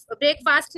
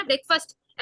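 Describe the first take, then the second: First: "ब्रेकफास्ट" with a long aa in fast; wrong pronunciation. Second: "ब्रेकफास्ट" with a short fust ending; correct pronunciation. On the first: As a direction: say "ब्रेकफास्ट" as break plus faast. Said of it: "नहीं है". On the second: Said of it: "ब्रेकफास्ट नहीं है". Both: Shown as a demonstration.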